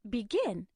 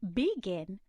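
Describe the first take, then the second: First: The stress is on the second syllable. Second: The stress is on the first syllable. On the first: The speaker calls it right. "The stress is on the second syllable" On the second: The speaker calls it wrong. "that doesn't sound as natural"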